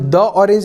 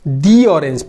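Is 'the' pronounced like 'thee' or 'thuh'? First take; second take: thuh; thee. First: 'The' is said with a short 'thuh' vowel. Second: 'The' is said with a long 'thee' vowel. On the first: The speaker calls it wrong. "इसे हम द orange नहीं पढ़ेंगे, वो गलत हो जाएगा" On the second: The speaker calls it right. "दी orange पढ़ेंगे"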